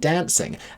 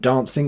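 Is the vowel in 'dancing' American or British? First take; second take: American; British. First: The word has the American short flat a vowel. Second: The word has the British long broad a vowel. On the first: "rather than" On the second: "singing it with British vowels"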